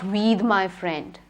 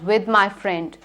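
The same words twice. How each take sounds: First: The vowel in with is a long ee. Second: The vowel in with is a short i. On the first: The speaker calls it wrong. "not with my friend" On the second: The speaker calls it right. "I'll go out with my friend"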